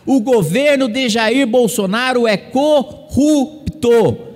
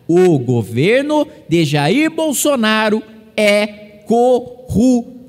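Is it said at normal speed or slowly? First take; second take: normal speed; slowly. First: It is said at a normal pace. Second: It is said more slowly.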